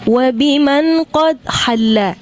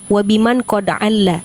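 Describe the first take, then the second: First: A clear h sound comes before 'alla'. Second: There is no h sound before 'alla'. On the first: The speaker calls it right. "Harusnya tapi yang keduanya" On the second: The speaker calls it wrong. "kedengarannya yang pertama"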